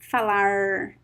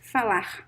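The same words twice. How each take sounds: First: The final R sounds like an American R. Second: The final R sounds like an English H. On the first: This is how it is said in small inland cities. "it sounds like the American R" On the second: This is how it is said in Rio de Janeiro. "the most common pronunciation in Rio de Janeiro"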